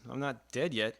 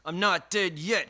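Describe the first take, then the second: First: It is said in a resigned, shrugging tone. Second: It is said in a triumphant, rallying tone. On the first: Things are bad, but survival is something. "I think he's saying it with a shrug" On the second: It is a rally cry of defiance. "I'm sitting here pumping my fist"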